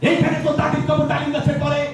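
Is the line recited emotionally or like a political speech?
political speech. It is declaimed like a politician's rally speech. "নেতাদের style তো জানি"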